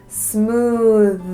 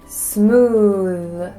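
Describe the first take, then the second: The two takes are said the same way.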